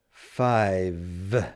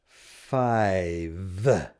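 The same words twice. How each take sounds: First: The word ends with a clear v sound. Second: The same.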